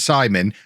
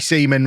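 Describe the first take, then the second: First: The first vowel sounds like 'eye'. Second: The first vowel sounds like 'ee'. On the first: The speaker calls it right. "if it's E I, you pronounce the I" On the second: The speaker calls it wrong. "The amount of people who say it should be Seaman"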